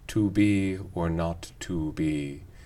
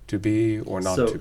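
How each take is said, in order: First: The word 'to' has a full long oo vowel. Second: The word 'to' has a reduced vowel with rounded lips. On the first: "we fully say to be or not to be" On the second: "some lip rounding continuing to tell our ears that underneath that shwu is a goose"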